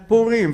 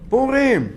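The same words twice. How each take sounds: First: פורים with the first syllable punched long, high and loud; wrong stress on first syllable. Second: פורים stressed on a long final RIM; loud, high פורים, leaning on the last syllable; correct stress on last syllable. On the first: Rabbi mimicking a common misreading to students, stress wrongly on first syllable. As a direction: hit PU in פורים, stretched out. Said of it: "ולא אומרים פורים". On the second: Rabbi correcting students' reading, stress on the last syllable. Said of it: "אתה אומר פורים ולא אומרים". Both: Shown as a demonstration.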